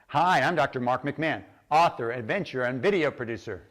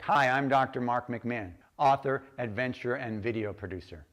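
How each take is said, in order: First: It is said with more energy. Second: It is said with low energy.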